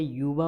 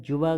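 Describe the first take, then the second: First: युवा said with a y, "yuva"; correct form. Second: जुवा said with a hard j, "juva"; wrong form said aloud. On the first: Teacher gives the right form युवा. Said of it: "युवा होता है". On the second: Teacher voices the wrong form जुवा. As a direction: start जुवा on a j sound. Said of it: "जुवा गलत है". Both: Shown as a demonstration.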